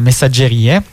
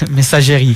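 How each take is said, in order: First: The word is pronounced with Italian sounds. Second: The word is pronounced with French sounds. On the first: The speaker calls it right. "La pronuncia è italiana" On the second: The speaker calls it wrong. "io pensavo fosse francese, no? Io lo chiamavo messaggerie"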